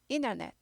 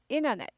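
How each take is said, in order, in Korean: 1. 가운데 t는 약화돼요. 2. 가운데 t는 약화돼요.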